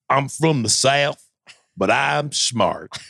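It is said in a Southern accent.

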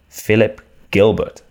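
The name is said the British way.

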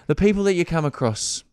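It sounds brisk, like wrapping things up. The speaker wants to end the conversation. "you sort of said it with an inflection I better wrap it up"

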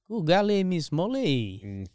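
It is said in a put-on French accent.

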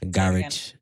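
It is said with a London British accent. "I'm from London, man"

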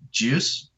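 The voice rises at the end, like a question. The leader is prompting the group to respond. "they'll say juice as a question. So they'll have the inflection"

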